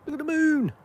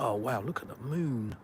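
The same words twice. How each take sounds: First: Delighted high cutesy voice. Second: Said in the usual way. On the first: Real, not acted. To his viewers about the moon, a high cooing baby voice. Spots the moon while streaming.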